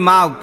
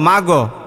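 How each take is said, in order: First: The gh sound ends quietly with no bounce. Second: The gh sound ends with an echoing bounce vowel. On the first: The speaker calls it right. "আমরা পড়ি মাগ" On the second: The speaker calls it wrong. "অনেকে কি পড়ে ... কলকলা করে ... ভুল হবে"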